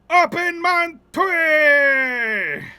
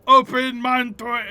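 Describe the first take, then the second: First: It is said loudly with lots of energy. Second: It is said quietly with little energy.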